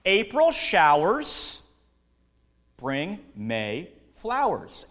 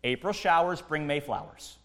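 First: April showers bring May flowers, slow and sing-song with a rise on April; slow proverb. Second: Said in the usual way. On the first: Shown as a demonstration. Pastor quoting a spring saying, slow and sing-song. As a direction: savour the saying word by word. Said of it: "we have a saying in the springtime". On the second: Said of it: "that's verse ten in a nutshell".

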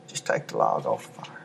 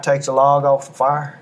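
First: Hushed whispered repeat. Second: Said in the usual way. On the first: Shown as a demonstration. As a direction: whisper it softly to them. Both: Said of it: "Can I encourage you tonight?".

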